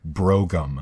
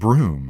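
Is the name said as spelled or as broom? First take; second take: as spelled; broom. First: It is said as spelled, with two syllables. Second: It is said as one syllable, like broom. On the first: The speaker calls it wrong. "looks like Brougham" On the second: The speaker calls it right. "it's actually pronounced Broom"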